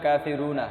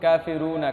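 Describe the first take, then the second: Both takes have the same delivery.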